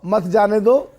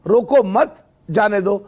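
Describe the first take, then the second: First: "मत जाने दो" as one joined phrase, no break after मत; comma after रोको. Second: "रोको मत" joined and rising, break, then "जाने दो"; comma after मत. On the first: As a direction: keep "मत जाने दो" together, meaning stop them. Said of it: "रोको के आगे कॉमा लगाओ". ("मत जाने दो" एक साथ, मत के बाद बिना रुके) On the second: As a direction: pause after मत in "रोको मत, जाने दो", meaning let go. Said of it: "मत के आगे लगाओ कॉमा". ("रोको मत" के बाद रुककर "जाने दो") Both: Shown as a demonstration.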